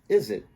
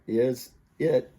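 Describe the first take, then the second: First: The z sound links into the next word. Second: The two words are said separately. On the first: "becomes is it" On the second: "So is it becomes"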